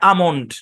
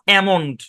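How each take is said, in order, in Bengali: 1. প্রথম স্বরধ্বনিটি একটি খোলা 'ah'। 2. প্রথম স্বরধ্বনিটি একটি চাপা 'a'। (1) "এই পুরো শব্দের উচ্চারণ হচ্ছে আমন্ড" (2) "নট অ্যামন্ড... এ শর্টসন দিবে না এখানে"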